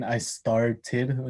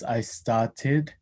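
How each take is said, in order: First: Said in the usual way. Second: Started with no R, New Zealand style; New Zealand R-less started; New Zealand accent. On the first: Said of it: "instead of saying". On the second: Shown as a demonstration. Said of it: "he says".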